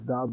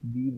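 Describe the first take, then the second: First: The word ends with a short 'uh' vowel. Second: The word ends with a long 'ee' vowel. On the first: Used before a word starting with a consonant. "बाज़ दा बोलते हैं" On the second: Used before a word starting with a vowel. "दा को लोग दी बोलते हैं"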